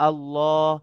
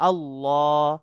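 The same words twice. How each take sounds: Both takes have the same delivery.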